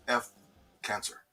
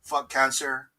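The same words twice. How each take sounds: First: Censored F, softer. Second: Said in the usual way. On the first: Shown as a demonstration. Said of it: "yeah, definitely". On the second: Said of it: "So I wanted to say that".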